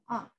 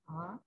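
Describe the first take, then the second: First: The syllable is said in the fourth tone. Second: The syllable is said in the second tone. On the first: "the final tone" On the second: "second tone"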